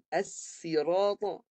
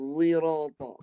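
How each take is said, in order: First: It begins with a plain s sound. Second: It begins with a heavy z sound. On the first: "guna sin" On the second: "Huruf zai yang ditebalkan"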